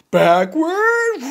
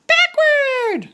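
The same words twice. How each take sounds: First: Gerald voice. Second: High little pig call; Piggy calling the move to Gerald, high voice. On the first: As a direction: drop down for the elephant. Gerald echoes. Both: Acted.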